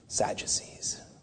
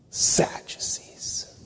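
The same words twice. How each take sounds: First: It is said in a plain neutral tone. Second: It is said with a contemptuous snarl.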